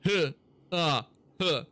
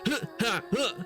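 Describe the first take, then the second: First: The noises are flat and lifeless. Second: The noises are energetic and full of action.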